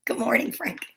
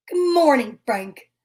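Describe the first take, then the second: First: Breathy hushed greeting; whisper. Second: Said in the usual way. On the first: Acted. Reader whispers a greeting to Frank in the book. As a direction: whisper it to the picture.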